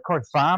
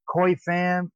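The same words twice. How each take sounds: First: The name is said with a non-American pronunciation. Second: The name is said with an American pronunciation. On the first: The speaker calls it right. "I think it's pronounced Fam" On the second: The speaker calls it wrong. "I've been Americanizing it all this time"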